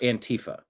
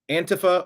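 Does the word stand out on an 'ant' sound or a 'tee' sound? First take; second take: tee; ant. First: Its middle part sounds like 'tea'. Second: It starts with a clear 'ant' sound. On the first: "spill the tea"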